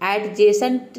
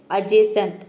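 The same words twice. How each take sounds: First: एडजेसेंट said with a hard d, "ed-jacent"; the mistaken एडजेसेंट, d sounded; wrong pronunciation. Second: एडजेसेंट said "ajacent", no d; एडजेसेंट with the d left silent; correct pronunciation. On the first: Teacher showing the wrong एडजेसेंट students say. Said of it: "एडजेसेंट नहीं होता है". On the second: Teacher to students, modelling एडजेसेंट with a silent d. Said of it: "इसको हम pronounce करते हैं". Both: Shown as a demonstration.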